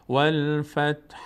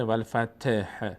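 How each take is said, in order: First: Slow "والفتح", t straight into breathed h; correct vowelless t. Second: "والفتح" with a vowel put on the t, "fateh"; wrong added vowel. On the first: Teacher correcting the mistake, clean t then faint h. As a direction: chant "والفتح" with no vowel after t. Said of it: "ت را حرکت ندیم". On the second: Teacher warning against voweling the t, says "fateh". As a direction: mispronounce "والفتح" as wal-fa-te-h. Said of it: "ت را حرکت ندیم، نشه". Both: Shown as a demonstration.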